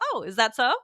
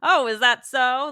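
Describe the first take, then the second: First: The tone is curious and interested. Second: The tone is doubtful and teasing. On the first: The news is found interesting. "if you're telling me a piece of interesting news" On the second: The listener's claim is not believed. "I might say to my son"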